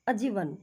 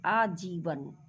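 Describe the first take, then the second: First: अजीवन with a short first a, ajeevan; wrong short a. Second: आजीवन with a long opening aa, aajeevan; correct long aa. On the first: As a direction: clip the opening vowel of अजीवन. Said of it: "अजीवन का कोई मतलब नहीं". (अजीवन को छोटे अ से ग़लत बोलें) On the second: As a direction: stretch the first vowel of आजीवन. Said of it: "हम यहाँ लिखेंगे आजीवन". (आजीवन को लंबे आ के साथ सही बोलें) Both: Shown as a demonstration.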